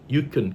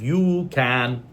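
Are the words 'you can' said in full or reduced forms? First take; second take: reduced; full. First: Both words are said in reduced weak forms. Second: Both words are said in full strong forms. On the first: "so you say you can pay" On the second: "instead of you can"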